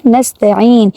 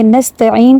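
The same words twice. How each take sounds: First: نستعین with a short ta; نستعین said nasta-in; correct short ta. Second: نستعین with the ta stretched; نستعین said nastaa-in; wrong long ta. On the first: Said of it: "تا کے اوپر صرف زبر ہے". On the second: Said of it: "یہاں پہ غلطی کیا ہوتی ہے". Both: Shown as a demonstration.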